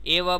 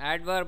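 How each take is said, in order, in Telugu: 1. 'd' ధ్వని పలకలేదు. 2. 'd' ధ్వని స్పష్టంగా ఉచ్చరించబడింది. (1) "ఏ వర్బ్ అని చదవకండి" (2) "ఇక్కడ డి ప్రొనౌన్స్ చేయాలి"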